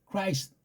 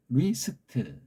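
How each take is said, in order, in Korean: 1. 이 단어는 k 소리로 시작해요. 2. 이 단어는 거친 h 소리로 시작해요. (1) "그냥 어영부영, 후딱 그렇게 넘기는 거예요" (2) "흐리스트 이렇게 발음해야 돼요"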